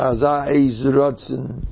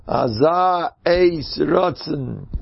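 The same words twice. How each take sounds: First: Said in the usual way. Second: "Aza Eis Rotzen" drawn out very slowly, each word weighed; slow emphatic repeat. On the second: Shown as a demonstration. ("Aza Eis Rotzen" sehr langsam und gedehnt betont)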